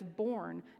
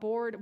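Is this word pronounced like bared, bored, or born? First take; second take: born; bored. First: The word sounds like born. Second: The word sounds like bored. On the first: The speaker calls it right. "I learned that it's born" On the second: The speaker calls it wrong. "not bared or bored"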